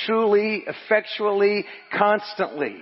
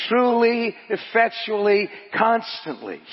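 First: "truly, effectually, constantly" word by word, falling on "constantly"; measured emphatic list. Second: "Truly, effectually, constantly" punched louder and higher at the start; forceful emphatic repeat. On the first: Preacher reads God's help to congregation, "truly, effectually, constantly" measured. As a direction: set "truly", "effectually", "constantly" apart evenly. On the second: Preacher repeats for congregation, "Truly, effectually, constantly" punched harder. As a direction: drive home "Truly", "effectually", then drop on "constantly". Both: Acted.

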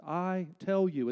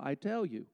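First: Slow, weighty "I tell you", "tell" stressed; emphatic I tell you. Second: Said in the usual way. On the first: Shown as a demonstration. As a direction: pound out "I tell you" like a pulpit. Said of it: "It's emphatic in the Greek". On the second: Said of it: "he's being emphatic in the original".

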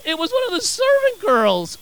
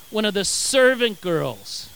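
First: High-pitched, scandalised disbelief; incredulous. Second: Said in the usual way. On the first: Real, not acted. Preacher exclaiming over Peter's small accuser, incredulous. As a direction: send it way up in disbelief. Contrast with the verse just read.

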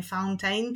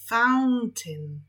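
First: "fountain" with the second syllable said as "tejn"; wrong fountain. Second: "fountain" with the end said as a short "tin"; correct fountain. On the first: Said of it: "nie fountain". (błędnie: "fountain" z końcówką "tejn") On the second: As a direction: give "fountain" a short "tin" ending, a little louder. (poprawnie: "fountain" z krótkim "tin" na końcu) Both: Shown as a demonstration.

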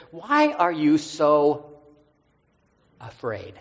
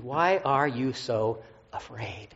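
First: Slowed right down, each word drawn out; slow solemn question. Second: Drawn out slowly, as if hearing it again; slow solemn question, recalled. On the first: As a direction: ask it slowly, gently probing. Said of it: "Jesus says". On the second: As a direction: linger on every word, searching. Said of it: "went right back to Monday". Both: Retold or imitated.

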